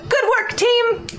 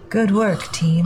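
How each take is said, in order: First: It is called out loudly and cheerfully. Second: It is said in a gloomy, morose voice. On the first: "Then I holler down" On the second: "Can you say it in your morose voice?"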